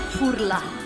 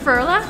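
First: It is said with an Italian accent. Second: It is said with an American accent. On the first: "Italian furla" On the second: "American furla"

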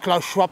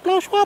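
First: It is said in his normal voice. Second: It is said in a squeaky high voice.

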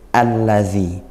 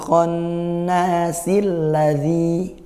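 First: The word begins with a clearly pronounced 'a'. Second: The word joins the previous one without initial 'a'. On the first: The reading starts fresh at this verse. "kalau kita mulai, A-nya dibaca A" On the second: The verse is read continuously from the previous one. "A-nya tidak dibaca"

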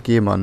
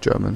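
First: The name is pronounced like 'Gehmann'. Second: The name is pronounced like 'German'. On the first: The speaker calls it right. "Gehmann, nicht German" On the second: The speaker calls it wrong. "nicht German"

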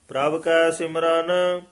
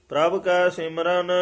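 The two takes are said the same way.

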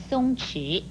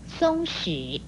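First: The second syllable begins with a ch sound. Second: The second syllable begins with a sh sound. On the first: "或是念成松迟" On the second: "有史和迟两个读音"

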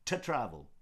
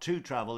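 First: The word 'to' is cut to a bare T. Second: The word 'to' has a full vowel. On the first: The speaker calls it right. "it's T apostrophe" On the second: The speaker calls it wrong. "It's not to travel"

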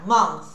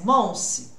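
First: The word ends with a th sound. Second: The word ends with an s sound. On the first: The speaker calls it right. "Olha o TH" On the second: The speaker calls it wrong. "É som de S?"

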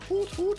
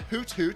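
First: It is hooted like an owl's call. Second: It is said in a plain speaking voice. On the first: The speaker calls it right. "You gotta say it like that, it's an owl" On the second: The speaker calls it wrong. "it's not Hoot Hoot"

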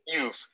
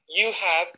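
First: The two words are run together into one short syllable. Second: The two words are said in full, with a clear 'have'. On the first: "we say, you've" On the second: "When we speak English quickly, you have"

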